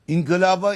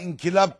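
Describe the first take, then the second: First: The long vowel is held long. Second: The long vowel is cut short. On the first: The speaker calls it right. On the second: The speaker calls it wrong.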